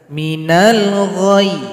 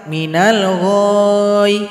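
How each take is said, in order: First: The final sound is pressed and cut short. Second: The final vowel is drawn out long. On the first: The speaker calls it right. "Jadi cukup ditasdid atau ditekan saja" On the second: The speaker calls it wrong. "Jangan dipanjangkan. ... itu salah"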